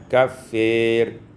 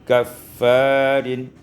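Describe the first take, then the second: First: The vowel after f is tilted toward e. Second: The vowel after f is a plain open a.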